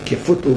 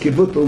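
First: The middle consonant is an f sound. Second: The middle consonant is a v sound. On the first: The speaker calls it wrong. "don't say Kvutl with a fey" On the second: The speaker calls it right. "it's Kvutl with a vase"

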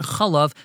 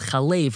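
First: The vowels are those of the standalone form. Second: The vowels are those of the connected form. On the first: The word stands on its own. The speaker calls it wrong. "not Chalev" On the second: The word is joined to the word after it. The speaker calls it right. "When it's connected with another word, so it's read as Chalev"

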